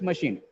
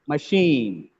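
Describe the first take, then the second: First: The stress is on the first syllable. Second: The stress is on the second syllable. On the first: The speaker calls it wrong. "It's not just machine" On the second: The speaker calls it right. "The second syllable"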